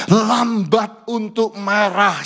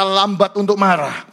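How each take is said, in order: First: Drawn out word by word; slow for emphasis. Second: Said in the usual way. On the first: Shown as a demonstration. Pastor teaching the verse, very slow stress. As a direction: lay each word down slowly. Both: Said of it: "Semua berkata".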